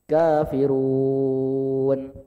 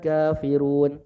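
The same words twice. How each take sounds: First: The long vowel is held for six counts. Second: The long vowel is held for two counts.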